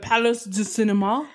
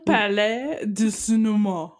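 First: The first word sounds like English 'palace'. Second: The first word is said the French way. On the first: The speaker calls it wrong. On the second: The speaker calls it right.

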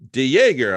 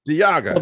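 First: The name ends with a 'Jäger' sound. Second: The name ends with an 'ah-ga' sound. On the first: The speaker calls it wrong. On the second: The speaker calls it right.

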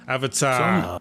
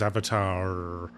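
First: The final R sound is dropped. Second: The final R sound is clearly pronounced. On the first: "the English accent doesn't usually pronounce the R on the ends of words" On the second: "I live in California, so everyone says Avatar"

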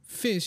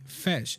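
First: The vowel is a short 'ih' sound. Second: The vowel is an 'eh' sound, Scottish-like. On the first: "the animals that live in the sea" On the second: "he would say fesh"

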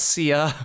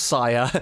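First: The first vowel sounds like 'see'. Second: The first vowel sounds like 'sigh'. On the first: The speaker calls it wrong. "It's not Sia" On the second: The speaker calls it right. "it is pronounced Saya"

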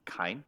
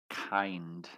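First: The word ends without a final D sound. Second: The word ends with a clear final D sound. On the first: The speaker calls it wrong. "You pronounced the M like kind" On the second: The speaker calls it right. "but you didn't say kind"

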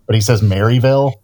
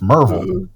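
First: The name is said the outsider way. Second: The name is said the local way. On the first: The speaker is not from the area. The speaker calls it wrong. "he says Maryville, and it's like, oh no, man! Like that's nobody from around there actually pronounces it" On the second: The speaker is from the area. The speaker calls it right. "It's Merville"

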